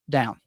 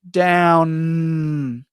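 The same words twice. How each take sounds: First: The final N sound is moderately strong. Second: The final N sound is very strong. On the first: "it will be right in the middle" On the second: "if you make the N really, really strong in practice"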